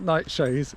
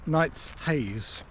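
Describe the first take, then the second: First: The middle is said as one 'sh' sound. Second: The middle is said as 's' then 'h'. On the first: The speaker calls it wrong. "It's not Nightshades" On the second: The speaker calls it right. "it's Night's Haze"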